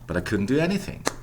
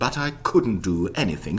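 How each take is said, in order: First: The function words are reduced to weak vowels. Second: The function words keep their full vowels. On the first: The speaker calls it right. "And redu reduce them" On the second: The speaker calls it wrong. "Who would say that? Nobody would"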